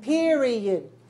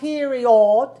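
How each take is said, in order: First: The last syllable is soft and small. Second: The last syllable is open and full. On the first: The speaker calls it right. "I want you to make it softer, smaller" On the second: The speaker calls it wrong. "some of you are making the last syllable to open"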